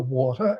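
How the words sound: It is said in a Brooklyn accent. "So we say it correctly"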